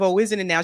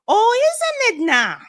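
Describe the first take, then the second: First: It is said in a plain, neutral accent. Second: It is said in a thick Midwestern accent.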